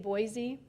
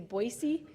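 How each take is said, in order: First: It is said with an outsider's pronunciation. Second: It is said with the local pronunciation. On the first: The speaker is not from the place. "Many of you probably say Boise" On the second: The speaker is from the place. "People in Idaho say Boise"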